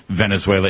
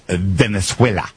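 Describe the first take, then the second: First: Said in the usual way. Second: "Venezuela" said slowly with a Spanish-style accent; Spanish-style pronunciation. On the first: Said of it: "correct my pronunciation there. It's not Venezuela". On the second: Shown as a demonstration. Host mimicking how his guest's wife would correct him, Spanish-style pronunciation. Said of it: "who would probably correct my pronunciation there".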